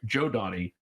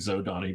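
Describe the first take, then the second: First: The name begins with a 'j' sound. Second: The name begins with a 'z' sound. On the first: The speaker calls it right. "oh, I'm sorry, Joe Donnie" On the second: The speaker calls it wrong. "that's the way I pronounced it for thirty years"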